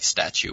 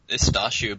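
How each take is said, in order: First: The name is said with an English-style pronunciation. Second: The name is said with its native pronunciation. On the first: "I gave up on people pronouncing it right, so just, like, Stachu works" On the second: "It's Stachu"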